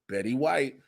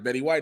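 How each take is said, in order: First: It is said slowly. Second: It is said at normal speed.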